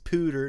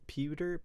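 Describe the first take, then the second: First: The word starts with a plain 'poo' sound. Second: The word starts with a 'pyoo' sound. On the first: "I pronounce this pooter" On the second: "not pewter"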